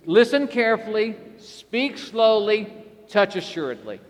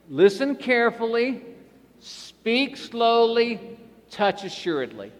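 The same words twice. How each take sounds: First: The phrase is said at a faster pace. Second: The phrase is said at a slower pace. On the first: "Now let's try a little faster" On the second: "We're going to do it like this"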